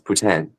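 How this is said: It is pronounced with a French accent. This is how it is said in Quebec. "Gonna have a little French accent to it"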